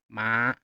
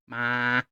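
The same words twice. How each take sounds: First: The pitch rises from low to high. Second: The pitch stays flat and high. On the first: "a rising tone from down here all the way up here" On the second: "We have the level tone"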